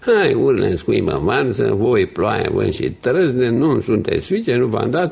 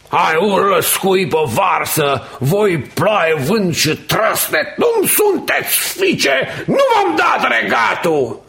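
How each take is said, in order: First: It is said flatly, as if read. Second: It is declaimed with full passion.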